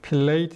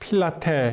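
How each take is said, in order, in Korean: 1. 음절이 두 개이고, 'late' 소리로 끝나요. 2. 음절이 세 개이고, 'teh' 소리로 끝나요. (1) "필레이트 이렇게 해야 됩니까?" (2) "필라테 이렇게 해야 됩니까?"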